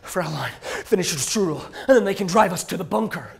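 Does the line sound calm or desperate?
desperate. The line is read with a lot of desperation.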